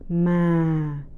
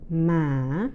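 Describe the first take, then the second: First: The pitch starts low and falls further. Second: The pitch dips low and then rises. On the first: "the falling tone" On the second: "the asking or low rising tone"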